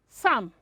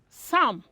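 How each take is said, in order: No difference in how they are said.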